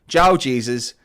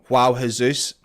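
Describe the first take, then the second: First: The first name starts with a hard English J. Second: The first name starts with a soft, non-English sound. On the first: "he has given me permission to use the hard J" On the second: "I tried to pronounce it"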